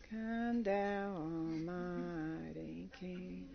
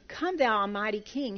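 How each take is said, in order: First: It is mumbled flatly with little energy. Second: It is spoken clearly with lively energy. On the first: The words are said without caring about them. The speaker calls it wrong. "here's how people sing it. ... They just mumble it like that" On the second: The words are felt as powerful and moving. The speaker calls it right. "these words are unbelievable"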